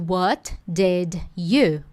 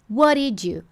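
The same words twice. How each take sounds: First: Each word is said fully and separately. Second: The words run together into one connected chunk. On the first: "Ao invés de" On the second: "é conexão"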